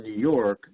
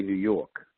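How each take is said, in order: First: Said in the usual way. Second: "New York" with no R, Brooklyn style; Brooklyn R-dropping. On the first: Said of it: "they'll say New York". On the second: Shown as a demonstration. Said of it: "no R".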